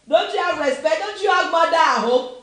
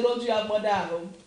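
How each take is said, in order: First: Put-on loud, higher scolding of noisy kids; an elder telling off rude youths, shouting; shouted scolding. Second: Said in the usual way. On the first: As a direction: yell it like an angry uncle on the bus. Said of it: "we used to shout on these kids". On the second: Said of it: "try and see and say".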